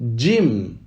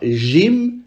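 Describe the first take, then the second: First: It begins with a 'dj' sound. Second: It begins with a soft 'zh' sound. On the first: The speaker calls it right. "mais on dit Jim. ... j'ai écrit un D et un J" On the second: The speaker calls it wrong. "on ne dit pas Jim"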